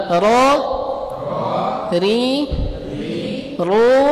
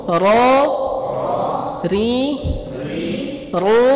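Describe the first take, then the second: No difference in how they are said.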